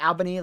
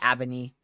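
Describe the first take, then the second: First: It is said the New York way. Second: It is said a different regional way.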